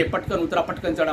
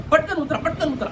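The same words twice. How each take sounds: First: Said in the usual way. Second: High mock call to get off quickly; conductor's rushed mock order, pitched up; hurrying conductor. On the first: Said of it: "इथं कुठे मला असा अनुभव आलेला नाही". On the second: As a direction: play the impatient conductor hustling people off. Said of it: "आणि उतरताना सुद्धा".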